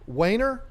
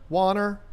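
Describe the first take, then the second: First: "Wayner" with a long AY, questioning; alternate pronunciation. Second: "Warner" with an open AH vowel, not AY; chosen pronunciation. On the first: Host guessing a new member's surname, alternate pronunciation. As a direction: try "Wayner" with a WAY first syllable. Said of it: "I'm gonna say that's pronounced Warner". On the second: Host settling on a new member's surname, chosen pronunciation. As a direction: try "Warner" with a broad first vowel. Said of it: "I'm gonna say Warner". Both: Shown as a demonstration.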